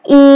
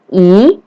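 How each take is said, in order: First: The pitch stays high and level. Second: The pitch rises from mid to high. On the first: "I nada pertama datar" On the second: "I nada kedua"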